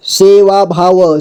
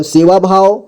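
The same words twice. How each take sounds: First: सेवा भाव slowly, final व sounded separately; syllable by syllable. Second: Said in the usual way. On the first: Shown as a demonstration. Teacher breaking down सेवा भाव for learners, slowly syllable by syllable. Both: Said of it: "जोड़ जोड़ करके".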